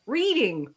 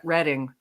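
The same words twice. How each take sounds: First: Reading said as reeding; pronunciation. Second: Reading said as redding; the British way, Reading rhymes with wedding; pronunciation. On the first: Streamer offers the first way to say the town. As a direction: read it like the verb. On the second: Streamer offers the second way to say the town. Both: Shown as a demonstration. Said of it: "It depends upon whether or not".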